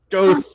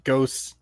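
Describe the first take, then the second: First: Higher and louder spooky Ghosts. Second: Said in the usual way. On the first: Acted. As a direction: wail Ghosts. like a ghost story. Jokey guess, said twice.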